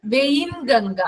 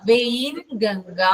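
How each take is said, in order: First: Said in the usual way. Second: Very slow, spelling out വെയിൻഗംഗ syllable by syllable; teacher slows down for a student taking notes; slow dictation. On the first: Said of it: "കുറച്ച് സ്പീഡിലാ പറയുന്നേ". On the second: Shown as a demonstration. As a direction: stretch വെയിൻഗംഗ out slowly so students can write it. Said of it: "vein കേട്ടോ".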